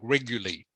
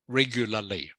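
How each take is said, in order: First: One of the two L sounds is dropped. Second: Both L sounds are clearly pronounced. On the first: The speaker calls it wrong. "people who are native English speakers often mispronounce words like this that have two L's. They say something like" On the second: The speaker calls it right. "So I'm glad you pronounced it correctly"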